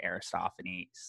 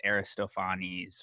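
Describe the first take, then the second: First: "Aristophanes" said the English way, a-ri-STOF-a-neez; English-style "Aristophanes", middle syllable stressed; anglicized pronunciation. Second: "Aristophanes" said the modern Greek way, a-ree-sto-FAH-nees; Greek-style "Aristophanes", second-last syllable stressed; modern Greek pronunciation. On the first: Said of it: "in English we'll say". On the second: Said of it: "it's like modern Greek says". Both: Shown as a demonstration.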